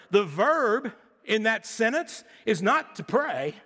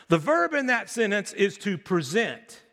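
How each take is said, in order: First: Said in the usual way. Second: The right verb, present, emphasized; stress on present. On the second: Shown as a demonstration. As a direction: present leaned on as the answer. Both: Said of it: "contrasting pray vs present".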